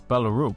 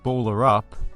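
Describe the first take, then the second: First: It is said with a Danish-style ending vowel. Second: It is said like two English words. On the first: "But I believe it's Ballaroop" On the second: "it sounds like some sort of basketball related euphemism"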